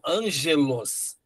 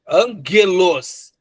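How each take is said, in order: First: The g sounds like a soft j. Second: The g is hard, as in gato. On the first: The speaker calls it wrong. "e não angelos" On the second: The speaker calls it right. "você pronuncia assim, ang, ó, angelos ... sempre esse som forte"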